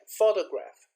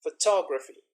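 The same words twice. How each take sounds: First: "photograph" with a strong "PHO", falling after; first-syllable stress. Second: "photography" punched loud on "TOG"; second-syllable stress. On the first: Teacher repeating the example, "photograph" stressed on its first syllable. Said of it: "hear the stress in the first". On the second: Teacher contrasting word forms, "photography" stressed on its second syllable. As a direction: hit the second syllable of "photography", unstressed "pho" before it. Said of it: "second, and the third syllable". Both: Shown as a demonstration.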